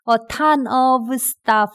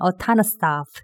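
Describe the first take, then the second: First: The phrase is said at a normal, careful pace. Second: The phrase is said faster and run together. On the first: "a ton of stuff 해도 되는데" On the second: "조금 더 빠르게 할 때는"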